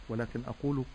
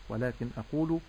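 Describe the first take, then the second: Both takes have the same delivery.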